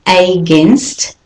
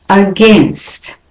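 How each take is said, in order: First: Against with a full AY, AY-GAINST; wrong way. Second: Against with a schwa start, uh-GAINST; right way. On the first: Teacher shows how not to say against. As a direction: against begun with a long AY. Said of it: "the next one is not against". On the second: Teacher models against with a schwa. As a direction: against begun with a weak uh. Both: Shown as a demonstration.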